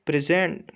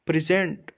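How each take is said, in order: First: present with the last syllable ZENT stressed; stress on second syllable. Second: present with the first syllable PRE stressed. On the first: Teacher showing students the verb present, stress on ZENT. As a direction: hit ZENT hard at the end of present. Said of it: "एसईएनटी पे ज़्यादा stress होगा". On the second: Teacher showing students the noun present, stress on PRE. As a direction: punch PRE at the start of present. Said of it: "पीआरई पे ज़्यादा फो-, जोर लगाएंगे". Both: Shown as a demonstration.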